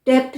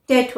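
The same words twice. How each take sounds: First: डेप्ट with a sounded P before the T; wrong pronunciation. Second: टेट said as "det"; silent B. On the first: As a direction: say डेप्ट as "dept". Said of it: "डेप्ट नहीं होता है". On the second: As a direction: go straight from vowel to T in टेट. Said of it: "टेट होता है". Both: Shown as a demonstration.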